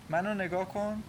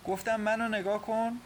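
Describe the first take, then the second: First: Said in the usual way. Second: High-pitched, insistent command; firm, decisive. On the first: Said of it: "این بار با صدای قاطع". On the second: A narrator's reading. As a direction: demand her attention, no refusal allowed. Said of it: "با صدای قاطع گفت". (با صدای قاطع)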